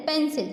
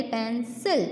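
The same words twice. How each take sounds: First: Said in the usual way. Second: "पेंसिल" broken into "पेन" and "सिल"; teacher sounding out "पेंसिल" as pen, then sil; syllables split for s. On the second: Shown as a demonstration. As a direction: say "पेंसिल" in two parts, the s of "सिल" clearly starting the second. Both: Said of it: "स का sound निकलेगा".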